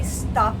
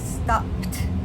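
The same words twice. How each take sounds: First: The word does not end in a clean PT sound. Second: The word ends in a clean PT sound. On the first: The speaker calls it wrong. "we don't say stopped" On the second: The speaker calls it right. "We hear that P T sound at the end"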